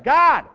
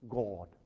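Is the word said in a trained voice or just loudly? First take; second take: loud; trained. First: The word is simply shouted out loudly. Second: The word is said in a polished, trained voice. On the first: "He can say, ... Not a trained voice, a loud one" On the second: "You don't have to be trained. He doesn't have to say"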